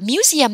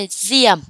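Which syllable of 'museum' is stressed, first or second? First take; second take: first; second. First: The stress is on the first syllable. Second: The stress is on the second syllable. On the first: The speaker calls it wrong. "các bạn không được là museum nha" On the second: The speaker calls it right. "chúng ta nhấn âm hai đó là museum"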